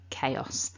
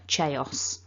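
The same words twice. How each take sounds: First: The word begins with a k sound. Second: The word begins with a ch sound. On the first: The speaker calls it right. "it's a k, no voicing" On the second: The speaker calls it wrong. "pronounce it with a ch"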